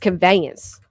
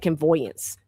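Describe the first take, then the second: First: The middle syllable is said as 'vay'. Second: The middle syllable is said as 'voy'. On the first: The speaker calls it right. "It's conveyance" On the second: The speaker calls it wrong. "I always say convoyance"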